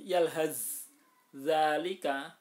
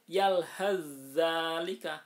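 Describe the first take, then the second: First: The first consonant is pronounced separately before the next. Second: The first consonant merges into a doubled next one. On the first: The speaker calls it wrong. "tidak boleh dibaca yalhaz zalika" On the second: The speaker calls it right. "cara membacanya dimasukkan ke huruf yang kedua"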